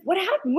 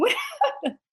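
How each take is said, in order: First: Said in the usual way. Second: Laughing through the question. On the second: Retold or imitated. Retelling the punchline to his co-host, laughing. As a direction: breaks into a laugh on the repeat. Crowd asking, speaker laughing.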